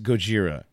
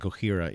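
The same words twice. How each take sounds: First: The J is said as a J sound. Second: The J is said as an H sound. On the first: This is how the band says its own name. The speaker calls it right. "That's how the band says it. That's how it's spelled with a J" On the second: This is a Spanish-style reading of the name. The speaker calls it wrong. "the Mexicans in Texas? Yeah, that's how they pronounce it"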